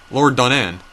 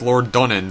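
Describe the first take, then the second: First: "Donan" with a fuller final syllable; changed pronunciation. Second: "Donan" with a weak final syllable; changing pronunciation. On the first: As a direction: Lord Donan with an open "an" ending, "don-AN". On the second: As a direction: Lord Donan with a short "en" ending, "DON-en". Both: Real, not acted. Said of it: "pronunciations of all these words are just changing".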